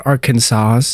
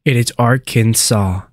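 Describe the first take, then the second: First: Arkansas ending in "sahs", final s sounded; wrong pronunciation. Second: Arkansas ending in "saw", silent s; correct pronunciation. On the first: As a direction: say the s on the end of Arkansas. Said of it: "It is not Arkansas". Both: Shown as a demonstration.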